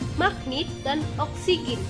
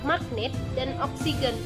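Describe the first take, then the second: First: The final-syllable vowels sound like i. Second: The final-syllable vowels sound like e. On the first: The speaker calls it wrong. "lafal tidak bakunya" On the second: The speaker calls it right. "lafalan bakunya"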